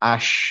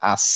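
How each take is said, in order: First: The consonant is a hushing 'sh'. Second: The consonant is a sharp hissing 's'. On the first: The speaker calls it wrong. "Not আশ।" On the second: The speaker calls it right. "এই দন্তের স টাইপের একটা উচ্চারণ হবে"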